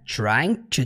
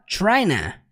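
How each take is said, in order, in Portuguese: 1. As duas palavras são faladas completas e separadas. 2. As duas palavras se fundem em uma única palavra reduzida. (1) "ele não fala trying to do" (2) "ele simplesmente contrai para tryna"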